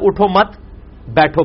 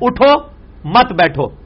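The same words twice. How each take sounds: First: There is a pause after 'mat'. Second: There is a pause after 'utho'.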